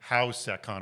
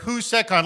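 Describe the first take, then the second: First: The first syllable sounds like 'how'. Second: The first syllable sounds like 'who'. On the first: The speaker calls it wrong. "I pronounced it incorrectly. I did like HowSecCon or something stupid like that" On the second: The speaker calls it right. "But we're at WhoSecCon"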